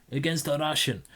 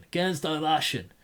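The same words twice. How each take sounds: First: A half-hearted put-on Norwegian accent; lightly faked Norwegian lilt; mock Norwegian accent. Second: Said in the usual way. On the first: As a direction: slip into a playful fake Norwegian accent. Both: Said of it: "Why am I talking like this?".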